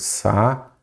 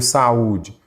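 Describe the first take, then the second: First: "Sa-u-de" broken into three separate syllables. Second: Said in the usual way. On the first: Shown as a demonstration. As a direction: pause between each syllable of "Sa-u-de". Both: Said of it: "quando você separa em sílabas".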